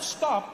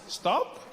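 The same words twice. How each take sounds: First: It is said as a firm command. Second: It is said as a gentle suggestion.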